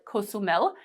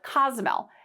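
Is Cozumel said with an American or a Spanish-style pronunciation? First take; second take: Spanish-style; American. First: It is said with a local Spanish-style pronunciation. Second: It is said with an American English pronunciation. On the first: This is how people who live there say it. "most of the locals call it Cozumel" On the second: This is how American visitors say it. "Americans call it Cozumel"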